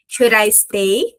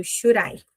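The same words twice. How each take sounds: First: Very slow, careful Should I stay; slow model question. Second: Quick, linked should I; fast should I. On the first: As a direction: spell out Should I stay slowly. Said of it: "Vou colocar até aqui". (pergunta modelo bem lenta) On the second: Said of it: "na hora que fala rápido". (should I rápido e ligado) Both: Shown as a demonstration.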